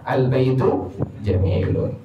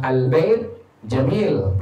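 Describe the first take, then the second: First: The words end in u and un sounds. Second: The words end without any vowel endings. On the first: "Harusnya dibaca" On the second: "Kalau sukun aman"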